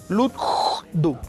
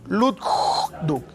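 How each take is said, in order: Both takes have the same delivery.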